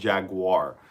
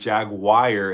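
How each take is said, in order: First: The word is said in three syllables, jag-u-ar. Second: The word is said in two syllables, jag-wire. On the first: This is how the commenters expected it. The speaker calls it right. "instead of Jaguar" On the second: This is how the speaker always said it. The speaker calls it wrong. "calling me out on saying Jaguar"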